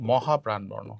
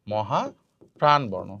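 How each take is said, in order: First: Said in the usual way. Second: Slow. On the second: Shown as a demonstration. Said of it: "teacher repeats term slowly".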